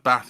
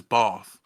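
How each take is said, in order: First: Said in the usual way. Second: "bath" with a long "ah", as "bahth"; overcorrected southern vowel. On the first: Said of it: "instead of bath, he says bath". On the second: Retold or imitated. Imitating dad's very southern accent, "bath" said as "bahth". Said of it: "almost overcorrected".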